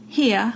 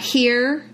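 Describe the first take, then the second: First: The final R becomes an ah sound. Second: The final R is clearly pronounced.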